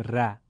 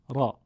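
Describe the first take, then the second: First: "ر" said thin and light, as a plain Persian ra; thin wrong ra. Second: "را" said with a full, heavy Arabic a; full heavy raa. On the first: Teacher showing the wrong thin ra to students. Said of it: "نمیگیم ر". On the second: Teacher showing the correct heavy raa to students. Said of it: "میگیم را". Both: Shown as a demonstration.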